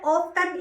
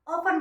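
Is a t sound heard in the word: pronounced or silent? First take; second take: pronounced; silent. First: The word is said with a t sound. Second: The word is said without a t sound. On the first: The speaker calls it wrong. "ऑफ्टन इसे नहीं बोलना, ये wrong हो जाएगा" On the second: The speaker calls it right. "ये जो टी है ना, ये साइलेंट है ... ऑफन बोला जाएगा"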